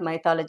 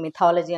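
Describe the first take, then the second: First: The first syllable is pronounced like 'my'. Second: The first syllable is pronounced like 'mih'. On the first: The speaker calls it wrong. "It's not మైథాలజీ" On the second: The speaker calls it right. "Actually దాన్ని మిథాలజీ అని పలకాలి"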